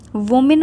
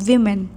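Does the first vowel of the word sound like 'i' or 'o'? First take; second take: o; i. First: The first vowel sounds like 'o'. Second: The first vowel sounds like 'i'. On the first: The speaker calls it wrong. "वोमेन मत पढ़ देना" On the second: The speaker calls it right. "इसका सही pronunciation is विमेन"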